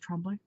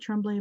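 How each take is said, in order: First: The name is said with French sounds. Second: The name is said with English sounds. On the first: The speaker calls it right. "it's pronounced Tremblay because of the French" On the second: The speaker calls it wrong. "everybody pronounces it"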